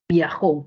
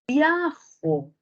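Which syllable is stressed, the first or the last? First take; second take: last; first. First: The stress is on the last syllable. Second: The stress is on the first syllable. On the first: "la sílaba tónica de jo" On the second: "muevo la sílaba tónica para el otro lado"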